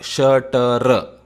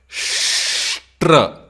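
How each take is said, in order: First: A vowel separates the sh and t sounds. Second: The sh and t sounds join with no vowel. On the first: The speaker calls it wrong. "It is not Shatr" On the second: The speaker calls it right. "It is Shtra"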